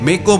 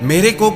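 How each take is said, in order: First: The word is clipped to a single syllable. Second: The word is said in full, both syllables. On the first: The speaker calls it wrong. "अधिकतर सब लोगों की भाषा के उच्चारण लगभग गलत होते हैं" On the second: The speaker calls it right. "की जगह"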